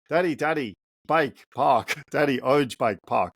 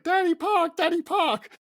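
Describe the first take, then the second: First: Lightly voiced excited three-year-old; a hint of a little boy begging for the park; toddler voice. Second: Very high, whiny mock toddler wail; crying toddler. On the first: Three-year-old son waking dad on Saturday, lightly voiced eager toddler. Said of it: "so he talks like this". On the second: Three-year-old son told no park, very high mock crying whine. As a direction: imitate a little boy sobbing for the park, pitched way up. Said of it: "And immediately he starts crying".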